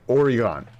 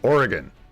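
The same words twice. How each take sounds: First: Each syllable is said clearly and separately. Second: The syllables are blurred and run together. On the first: This is how the word would be expected to sound. "That is how you would say it" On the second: This is how locals actually say it. "you just kind of like let it run together"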